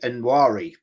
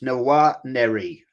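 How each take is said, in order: First: The name is said with two syllables. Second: The name is said with three syllables. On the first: The speaker calls it wrong. "I've been saying Nwari, but it's actually" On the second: The speaker calls it right. "I'm told this is how you pronounce it"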